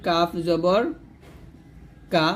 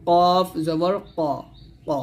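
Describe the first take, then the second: First: Said in the usual way. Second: Thick ক popped from the back of the tongue; slow, full-mouthed q on কফ and ক, tongue root against the palate; heavy qaf. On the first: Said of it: "এটা আপনি বাংলাও লিখতেই পারেন". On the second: Shown as a demonstration. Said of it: "মোটা করে একটা পাল্টা আওয়াজ".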